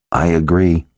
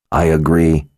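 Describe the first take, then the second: First: Said in the usual way. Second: A touch of a growl. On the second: A narrator's reading. Kara backing Nikki on leaving, lightly growled. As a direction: agree with a slight growl. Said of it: "Kara growled".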